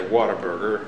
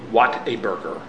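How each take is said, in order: First: The first part is said with a Pennsylvania accent. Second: The first part is said with a standard accent. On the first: The speaker calls it wrong. "being as how I'm from Pennsylvania, I just say Whataburger" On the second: The speaker calls it right. "But it's a Whataburger"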